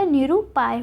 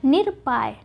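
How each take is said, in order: First: निरुपाय with u after r; three beats, ru inside निरुपाय; correct form निरुपाय. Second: निरपाय with no vowel after r; the mistaken nir-paay in निरपाय; wrong form निरपाय. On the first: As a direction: say निरुपाय as ni-ru-paay. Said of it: "निरुपाय होता है". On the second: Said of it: "निरपाय नहीं होता". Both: Shown as a demonstration.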